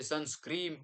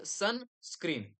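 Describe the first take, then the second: First: The word ends with an m sound. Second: The word ends with an n sound. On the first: The speaker calls it wrong. "कोण म्हणते सनस्क्रीम" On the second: The speaker calls it right. "So it is सनस्क्रीन"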